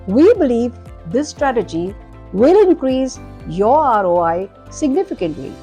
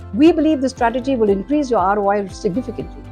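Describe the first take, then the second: First: It is said with many pauses between words. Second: It is said fast with no pauses. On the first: "I have overpaused" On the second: "I was fast and I didn't breathe. I didn't put a micro pause or any pause in between"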